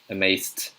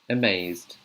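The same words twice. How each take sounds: First: The ending is pronounced as a T sound. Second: The ending is pronounced as a D sound. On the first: The speaker calls it wrong. "if I read it with a T, you can't say" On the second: The speaker calls it right. "So that's the D sound"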